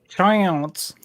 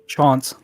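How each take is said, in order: First: It is said in a British-Texan accent. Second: It is said in a British accent.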